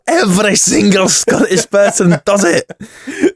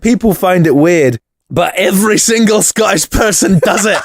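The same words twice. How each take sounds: First: Slow, hammed-up Scottish accent. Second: Hammed-up Scottish accent; bad Scottish accent, pitched higher. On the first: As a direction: drag out a bad Scottish accent. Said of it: "Sorry about that terrible, terrible Scottish accent". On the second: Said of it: "terrible Scottish accent".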